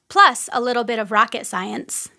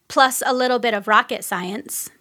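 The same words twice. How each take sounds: Both takes have the same delivery.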